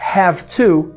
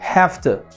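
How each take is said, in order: First: The word 'to' is said in full. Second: The word 'to' is reduced to a t. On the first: "ao invés de falar have to" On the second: "a gente fala have to"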